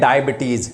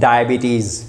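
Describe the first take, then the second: First: The word is said in the common local way. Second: The word is said in the standard English way. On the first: The speaker calls it wrong. "आप बोलते हैं डायबिटीज" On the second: The speaker calls it right. "उसको बोलते हैं डायबिटीज"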